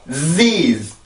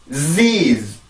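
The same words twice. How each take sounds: No difference in how they are said.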